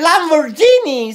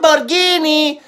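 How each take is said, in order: First: The consonant before 'ini' is soft, not hard. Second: The consonant before 'ini' is a hard g. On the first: The speaker calls it wrong. "No se dice Lamborghini" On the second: The speaker calls it right. "se dice Lamborghini. Guini"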